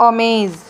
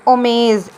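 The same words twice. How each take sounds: Both takes have the same delivery.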